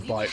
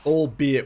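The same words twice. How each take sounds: First: It is said as two syllables, al-bite. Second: It is said as three syllables, al-be-it. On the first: The speaker calls it wrong. "and not albeit. ... always thought it was albite" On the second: The speaker calls it right. "was pronounced that way"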